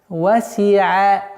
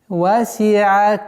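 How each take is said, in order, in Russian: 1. Звук ayn произносится мягко. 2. Звук ayn произносится мягко.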